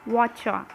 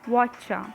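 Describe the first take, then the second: First: The words blend into one shortened word. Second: The same.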